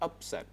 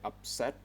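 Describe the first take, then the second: First: The stress is on the first syllable. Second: The stress is on the second syllable. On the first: The speaker calls it wrong. "not upset" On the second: The speaker calls it right. "The stress is on the second sound. We say upset"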